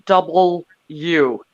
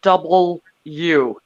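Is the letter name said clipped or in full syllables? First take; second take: full; full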